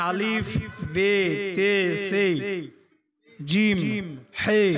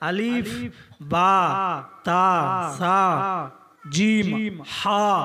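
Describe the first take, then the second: First: The letter names end in an 'e' vowel. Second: The letter names end in an 'a' vowel. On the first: This is the older way of reciting. "আগে আপনারা অনেকে পড়েছেন" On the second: This is the current way of reciting. "এখনকার মৌলবীরা কি বলছে?"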